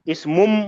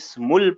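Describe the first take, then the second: First: The word ends with an m sound. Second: The word ends with an l sound. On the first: "ऐसा नहीं पढ़ा" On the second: "इसमुल पढ़ा है"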